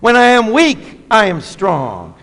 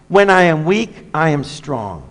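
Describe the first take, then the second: First: It is said loudly, with strong force. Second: It is said softly, without much force.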